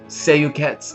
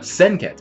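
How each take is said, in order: First: The name begins with a 'sei' sound. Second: The name begins with a 'sen' sound. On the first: The speaker calls it wrong. "Am I saying that right?" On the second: The speaker calls it right. "No, Senkets. My bad"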